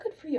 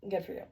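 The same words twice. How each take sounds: First: The tone is warm and genuinely pleased. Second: The tone is sarcastic and dismissive. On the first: The speaker is truly happy for the listener. "I'm really happy" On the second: The speaker does not actually care.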